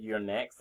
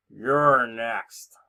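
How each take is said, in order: First: Said in the usual way. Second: Half-hearted attempt at a Russian accent; badly faked Russian accent, drawn out; Lana. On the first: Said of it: "she's never actually said". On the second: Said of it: "That's supposed to be a Russian accent".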